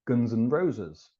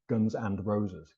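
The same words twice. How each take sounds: First: The 'and' is reduced to a weak 'un'. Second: The 'and' is said in its full form. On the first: It sounds like a rock band. The speaker calls it right. "we've got un as well, like" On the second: It doesn't sound like a rock band. The speaker calls it wrong. "We don't say"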